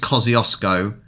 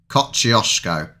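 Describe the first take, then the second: First: The word is said without an sh sound. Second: The word is said with an sh sound. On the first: The speaker calls it wrong. "I don't think it's Kosciuszko. Not how the Aussies are saying it" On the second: The speaker calls it right. "It's got to be a sh in it"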